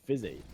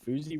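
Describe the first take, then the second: First: The first vowel sounds like short 'i'. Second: The first vowel sounds like 'oo'. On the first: The speaker calls it wrong. "it was pronounced Fizzy" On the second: The speaker calls it right. "I was saying Fuzi"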